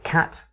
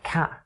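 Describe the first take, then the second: First: The word ends with a clearly released t. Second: The word ends with a glottal stop instead.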